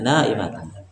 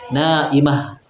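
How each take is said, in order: First: The word ends with a full tan ending. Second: The word ends in a stopped h sound. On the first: "memperjelasnya harokatnya" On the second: "Kalau kita sukunkan"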